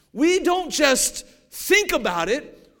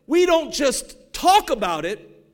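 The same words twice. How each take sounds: First: "think" pushed up and held; stress on think. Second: "talk" pushed up and held; stress on talk. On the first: Preacher stressing "think" to the church, loud and slow. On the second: Preacher stressing "talk" to the church, loud and slow. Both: Acted.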